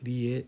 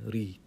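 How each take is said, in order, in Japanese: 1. 語末はiとeの2つの別々の母音です。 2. 語末は長いeeの母音1つです。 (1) "リエじゃなくて" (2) "ドイツ人だったら宮沢りえさんのことを宮沢リーって言いますかね"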